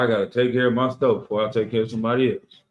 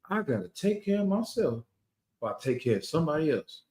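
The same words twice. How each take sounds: First: It is said in his normal voice. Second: It is said imitating the people described.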